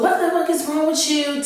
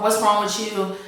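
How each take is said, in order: First: Higher, mock furious demand; escalating angry question. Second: Said in the usual way. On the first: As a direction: push it up into a retold rage. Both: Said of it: "it just gets more and more".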